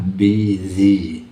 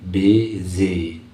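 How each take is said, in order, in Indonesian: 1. Kata ini diucapkan dengan bunyi z. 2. Kata ini diucapkan dengan bunyi z.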